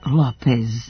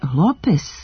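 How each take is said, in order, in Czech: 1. Přízvuk je na druhé slabice. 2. Přízvuk je na první slabice. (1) "a ne" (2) "akcenat je na prvom slogu"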